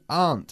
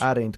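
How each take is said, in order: First: The word is said as one syllable. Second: The word is said with two syllables. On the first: The speaker calls it right. "Una okay. sola sílaba" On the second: The speaker calls it wrong. "Como todos los españoles. No se hace así"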